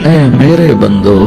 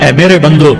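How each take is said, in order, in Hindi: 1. यह गर्म और कोमल लहजे में कहा गया है। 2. यह सपाट, जैसी बात है वैसी, लहजे में कहा गया है।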